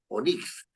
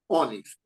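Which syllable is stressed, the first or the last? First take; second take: last; first. First: The stress is on the last syllable. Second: The stress is on the first syllable. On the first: The speaker calls it wrong. "uno no dice Onix" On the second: The speaker calls it right. "en la O"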